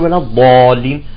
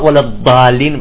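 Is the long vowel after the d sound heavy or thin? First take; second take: heavy; thin. First: The long vowel after the d is heavy. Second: The long vowel after the d is thin. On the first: The speaker calls it right. "يقول ولا الضالين" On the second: The speaker calls it wrong. "حتما ما يقرأ ولا الضالين"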